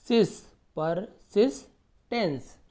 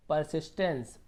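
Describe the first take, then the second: First: persistence slowly as "par - sis - tens"; slow piece-by-piece reading of persistence; broken into syllables. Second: Said in the usual way. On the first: Shown as a demonstration. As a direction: gaps between the three parts of persistence. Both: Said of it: "तोड़ तोड़ के पढ़िए".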